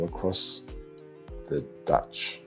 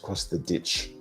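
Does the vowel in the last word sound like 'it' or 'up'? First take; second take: up; it. First: The last word's vowel sounds like 'u'. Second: The last word's vowel sounds like 'i'. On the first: It mimics how New Zealanders say the word. "when they say an I, it sounds like a U" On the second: It is how Australians say the word. "the ditch with an I"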